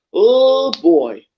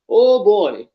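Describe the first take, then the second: First: Exasperated groan. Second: Said in the usual way. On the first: Real, not acted. Reacting to bad wrestling match.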